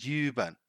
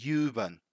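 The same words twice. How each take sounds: The two takes are said the same way.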